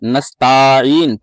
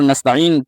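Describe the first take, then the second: First: The vowel after 'nast' is drawn out long. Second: The vowel after 'nast' is short. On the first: The speaker calls it wrong. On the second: The speaker calls it right.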